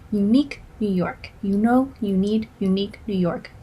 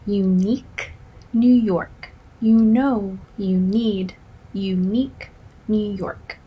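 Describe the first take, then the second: First: The phrase is said at a faster pace. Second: The phrase is said at a slower pace.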